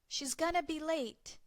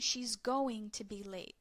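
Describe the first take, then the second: First: 'Going to' is blended into 'gonna'. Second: 'Going to' is said fully as two words. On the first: "we blend going to to gonna" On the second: "This is like saying"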